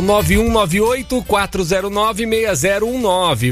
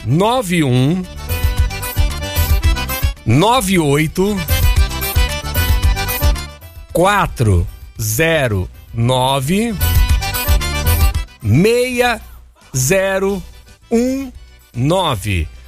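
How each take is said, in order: First: The number is read at normal speed. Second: The number is read slowly.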